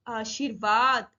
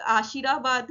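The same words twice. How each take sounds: First: Slow आशीर्वाद, r with no vowel, "aa-shir-vaad"; light र. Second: आशीराबाद with an added vowel after r; misread with full "ra". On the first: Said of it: "हल्के से बोलना". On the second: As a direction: say आशीराबाद with r as a whole syllable "ra". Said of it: "आशीराबाद नहीं पढ़ेंगे". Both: Shown as a demonstration.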